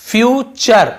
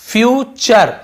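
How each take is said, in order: First: The middle consonant is a 'ch' sound. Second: The same.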